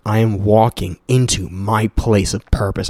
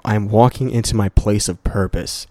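First: Savoring the app's affirmation, slow and deliberate. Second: Said in the usual way. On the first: Shown as a demonstration. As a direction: read "I am walking into my place of purpose" slowly and deliberately, like an affirmation. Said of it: "I fucking love that". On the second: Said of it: "The I Am app".

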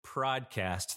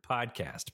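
First: "prodcast" with an R slipped in after the P; mispronounced podcast. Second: Said in the usual way. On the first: Shown as a demonstration. Host owning up to a slip, mispronounced podcast. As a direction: say "prodcast", PR at the start. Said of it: "I just said "prodcast" three times". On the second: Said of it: "I can't say the word podcast".

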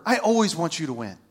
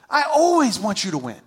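First: Said in the usual way. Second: Emphatic repeat with "always" punched higher; stress on "always". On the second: Retold or imitated. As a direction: lean hard on "always", then fall away.

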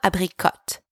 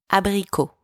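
First: Abricot said with the final T sounded, English style; wrong pronunciation. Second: Abricot in French, ending on an open o with a silent T; correct French pronunciation. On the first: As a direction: pronounce abricot wrongly, ending on a clear T. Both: Shown as a demonstration. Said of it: "The T is silent".

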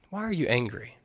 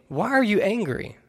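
First: Softly asked fatherly question; hushed, tender concern; gentle father. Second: Raised-pitch questioning scripture reading; pitched-up, projected Bible quote; scripture read aloud. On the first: Acted. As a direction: ask it quietly, like a father consoling his upset son. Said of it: "like a father sitting on the side". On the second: A narrator's reading. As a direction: read the Lord's question out to the congregation. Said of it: "He says to Cain".

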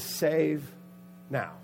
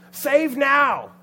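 First: Said in the usual way. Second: High, very loud rallying cry; acted full-voiced yell. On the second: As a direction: shout it as a crowd's plea. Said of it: "He yells out".

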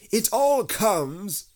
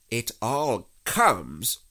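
First: High, loud, slow grumble from a bear; cross. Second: Slow, loud, measured rebuke; stern. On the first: Stuck Pooh blames Rabbit, cross. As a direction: complain crossly, high and drawn out. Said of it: "said Pooh crossly". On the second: Rabbit scolds stuck Pooh, stern. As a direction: lay down the verdict slowly and firmly. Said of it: "said Rabbit sternly". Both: A narrator's reading.

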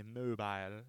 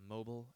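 First: "mobile" drawn out as MOH-bile; British pronunciation of mobile. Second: Said in the usual way. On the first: Shown as a demonstration. American back from England, affecting British "mobile". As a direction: say "mobile" slowly, rhyming its end with mile. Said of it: "American who came back from England".

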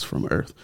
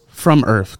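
First: Breathy whisper of the label, voice gone. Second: Said in the usual way. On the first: Retold or imitated. Whispering what X says under a post. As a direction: softly whisper the tagline like a caption. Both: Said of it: "That's what X, you know, says".

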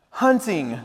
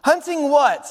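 First: Winnie the Pooh. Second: High, inquisitive little voice; Piglet. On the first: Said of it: "said Pooh". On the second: Piglet presses Pooh, high questioning voice. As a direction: ask it high, falling off at the end. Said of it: "So Piglet said". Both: Acted.

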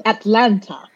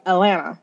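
First: "Atlanta" with both T's fully sounded; careful Atlanta pronunciation. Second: "Atlanta" said as locals do, T's dropped; local Atlanta pronunciation. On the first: Showing what locals are not saying, "Atlanta" with crisp T's. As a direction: pronounce every T in "Atlanta", At-LAN-ta. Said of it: "They're not saying". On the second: Showing how people from Atlanta say it, "Atlanta" with dropped T's. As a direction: slur "Atlanta" together without its T sounds. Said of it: "people from Atlanta don't say At". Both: Shown as a demonstration.

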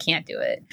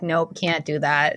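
First: "Can't do it" dropped much lower and softer; a flat, sunk-low verdict of defeat; deep mock refusal. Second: Mock refusal. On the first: Scared younger self giving up before trying, low mock voice. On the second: Scared younger self backing out of a good thing, mock refusal.

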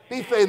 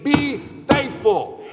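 First: Said in the usual way. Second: Be faithful slowed way down, higher; drawn-out plea. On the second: Shown as a demonstration.

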